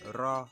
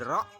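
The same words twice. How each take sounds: First: The word is flat with no glottal stop. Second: The word is cut off by a glottal stop. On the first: The speaker is from the Kuku community. "in Kuku, you'll say "ro." ... there is no voice stop. It is just flat" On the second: The speaker is from the Nyepo community. "In Nyepo, you'll say "ro," ... here there is a voice stop"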